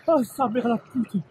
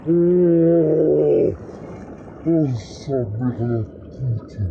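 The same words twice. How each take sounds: First: High, slow cold-shock swearing; in ice cold water. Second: Very slow, loud groaning curse; in ice cold water. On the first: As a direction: swear through the icy shock. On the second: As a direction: drag it out, numb with cold. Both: Real, not acted. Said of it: "Elle est gelée".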